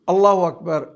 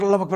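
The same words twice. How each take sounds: First: It is said slowly and fully. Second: It is said quickly and clipped.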